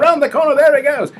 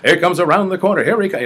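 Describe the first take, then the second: First: Very high, loud Australian track announcer; Aussie race caller. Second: Higher, louder track announcer call; American race caller. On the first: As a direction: call the race in an Aussie accent, pitched way up. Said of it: "I did an, Au-, an Aussie voice". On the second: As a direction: call the horses in an American accent. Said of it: "American way. I went". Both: Retold or imitated.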